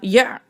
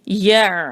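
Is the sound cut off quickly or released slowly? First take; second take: quickly; slowly. First: The sound is cut off abruptly and quickly. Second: The sound is released slowly and calmly. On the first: The speaker calls it wrong. "एकदम से रोक नहीं देंगे कि जल्दी से अदा किया" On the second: The speaker calls it right. "आहिस्तगी से"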